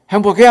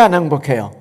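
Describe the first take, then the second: First: 행복해요 asked loud with a bright rise; quizzing the congregation, louder with an upward lilt; rising question. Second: 안 leaned on, then 행복해요 falling; quizzing the congregation, the negative stressed and falling. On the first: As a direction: toss 행복해요 up to the crowd. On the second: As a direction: press 안 and let the question drop. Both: Shown as a demonstration. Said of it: "contrasting questions to audience".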